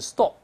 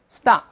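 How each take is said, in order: First: The vowel is a rounded British o sound. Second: The vowel is an open, unrounded American ah sound. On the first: "在英式发音分别是" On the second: "在美音中分别变成"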